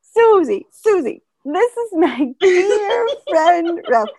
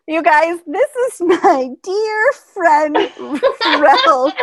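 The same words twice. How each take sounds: First: Put-on high, loud, slow quavery old voice; imitating grandma. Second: Put-on high, louder, slow old lady voice, laughing through it; mock the old lady's proud introduction; imitating grandma. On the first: Grandma interrupting relatives to present Ralph, quavery mock voice. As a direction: repeat it like a sweet old lady. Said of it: "anytime anyone started talking". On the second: Grandma introducing her friend on the family call, hammed-up old voice. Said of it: "over and over again".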